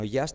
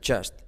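First: The first sound is not an English 'j'. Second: The first sound is a clear English 'j'. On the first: The speaker calls it wrong. "no just" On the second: The speaker calls it right. "sino just"

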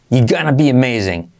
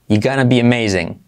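The two takes are said the same way.

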